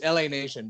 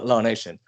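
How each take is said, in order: First: LA is spoken as two separate letters. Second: LA is spoken as the single word law. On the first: This is the channel's real name. The speaker calls it right. "it's L A Nation" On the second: This is how an automated voice reads it. The speaker calls it wrong. "voiceover pronounces it uh, Law Nation"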